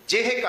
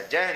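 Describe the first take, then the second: First: ਜਿਹ with a short i after ਜ, no nasal; careful ਜਿਹ with sihari sound on the j. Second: ਜਹ with an open "ai" sound instead of short i; ਜਹ misread without the short i; mistaken open vowel. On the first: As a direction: say ਜਿਹ as "jih", short vowel on ਜ. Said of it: "ਜਿਹ ਜੱਜੇ ਨੂੰ ਸਿਹਾਰੀ ਹੈ". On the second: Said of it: "ਜਹ ਵੀ ਨਹੀਂ ਪੜਨਾ ਬਿੰਦੀ ਲਾ ਕੇ". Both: Shown as a demonstration.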